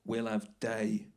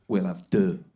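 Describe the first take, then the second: First: "day" said like English day, slowly; mispronounced French. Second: "deux" punched loud with a rounded uh; corrected French vowel. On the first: Husband orders breakfast from the waiter, mispronouncing French "deux" as "day". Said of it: "It's not day, it's de". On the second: Husband reorders for the waiter, pointedly corrected "deux" said loud. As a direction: hit "deux" hard, uh rather than ay. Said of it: "it's de". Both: Retold or imitated.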